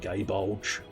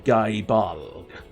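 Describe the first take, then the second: First: The last word ends with a j sound. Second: The last word ends with a hard g sound. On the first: The speaker calls it wrong. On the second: The speaker calls it right. "the correct pronunciation is possibly"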